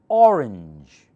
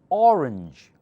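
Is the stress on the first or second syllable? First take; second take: first; first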